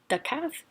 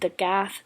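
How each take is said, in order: First: The second word begins with a hard k sound. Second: The second word begins with a soft g sound. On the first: The speaker calls it wrong. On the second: The speaker calls it right. "See how it just sounds a little bit softer, more flowy?"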